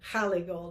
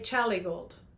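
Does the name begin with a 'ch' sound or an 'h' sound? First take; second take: h; ch. First: The name begins with a breathy 'h' sound. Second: The name begins with a 'ch' sound. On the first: This is how many other Spanish speakers say it. "a lot of other Spanish speakers would say jale gold" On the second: This is how Mexicans usually say it. "Mexicans usually say chale gold"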